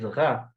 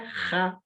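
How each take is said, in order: First: The throaty first consonant is voiced. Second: The throaty first consonant is voiceless. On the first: The speaker calls it right. "Vai ser sonoro, como o R em francês" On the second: The speaker calls it wrong. "não é Ra, é, surdo, como no espanhol ou como no russo"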